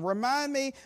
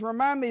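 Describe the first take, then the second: First: It is read in a mocking, sarcastic tone. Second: It is read in a plain, neutral tone.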